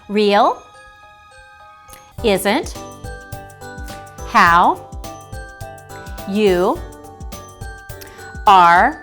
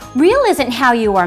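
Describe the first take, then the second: First: The words are read slowly with gaps. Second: The words are read at a moderate pace.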